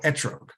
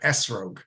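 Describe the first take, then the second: First: The middle consonant sounds like a T. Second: The middle consonant sounds like an S. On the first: "their pronunciation of the Tav without a dot uh, sounds more like a T" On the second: "the letter Tav without a dot uh, pronounced as as uh, like an S in English"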